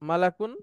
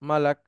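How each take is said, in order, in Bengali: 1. শব্দটি একটি যোগ করা 'un' ধ্বনি দিয়ে শেষ হয়। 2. শব্দটি একটি খালি 'k' ধ্বনি দিয়ে শেষ হয়।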